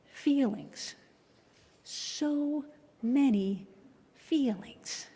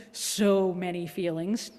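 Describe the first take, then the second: First: Very slow high-pitched sigh of many; drawn-out refrain. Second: Said in the usual way. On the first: Acted. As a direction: stretch so many out slowly and wistfully.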